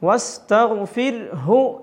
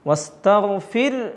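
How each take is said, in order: First: It ends on a full h with a vowel. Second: It ends on a faint h with no vowel. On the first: The reciter is continuing without stopping. "വസ്തഗ്ഫിർ ഹു എന്നാണ്" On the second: The reciter is stopping at the end of the verse. "ഇങ്ങനെ ഹാഇൻ്റെ ഒരു പകുതി കേൾക്കണം"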